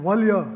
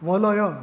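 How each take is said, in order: First: A closed long syllable then one short syllable. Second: Three short open syllables, each vowel sounded. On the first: "ગાલ ... એવું ન થઈ શકે" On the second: "લલલ ન થઈ શકે"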